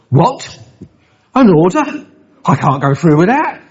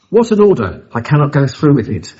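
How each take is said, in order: First: It is broken into separate questioning phrases. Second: It flows as one exclamation without questions.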